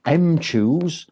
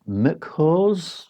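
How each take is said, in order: First: Mchoose said as "em-CHOOZ"; slow, separated "em-chooz" for Mchoose; pronounced em-chooz. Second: Mchoose said as "muk-HOZ"; slow, tentative "muk-hoz" for Mchoose; pronounced muck-hose. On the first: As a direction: say Mchoose as the letter M plus "choose". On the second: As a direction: read Mchoose as "Mc" plus "hose". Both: Shown as a demonstration. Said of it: "I don't know how to say it".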